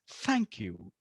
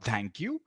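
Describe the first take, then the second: First: The first sound is breathy air between teeth. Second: The first sound is a stopped, t-like sound. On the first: The speaker calls it right. "It's a breathy sound" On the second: The speaker calls it wrong. "or thank you"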